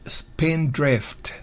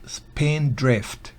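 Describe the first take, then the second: Both takes have the same delivery.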